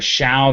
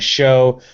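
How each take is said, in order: First: The syllable ends in an 'ow' sound, like shao. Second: The syllable ends in an 'oh' sound, like show. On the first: This is the technically accurate pronunciation. "Technically, the first syllable is more of a shao" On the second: This is the common American approximation. "than a show"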